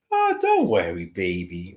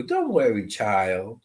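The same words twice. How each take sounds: First: Soft lyrical grandma. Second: Put-on gentle lilt dropping low on child; a grandma's soothing sing-song; soft lyrical grandma. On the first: Retold or imitated. Medium describing the grandmother's voice, soft and lyrical. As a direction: soothe like a grandmother calming a child. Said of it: "soft, lyrical rhythm of speaking". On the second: Medium imitating the grandmother, lightly soft and lyrical. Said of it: "She had that kind of a way of speaking".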